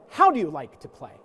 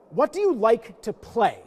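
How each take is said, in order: First: HOW stressed, the rest falling away. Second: YOU stressed, slow and falling. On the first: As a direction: hit the word How, then let it drop. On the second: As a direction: lean on the word you in "What do you like to play?". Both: Shown as a demonstration.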